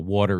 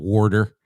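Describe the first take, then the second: First: It is said with a clear t sound. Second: It is said with a d-like sound, 'warder'.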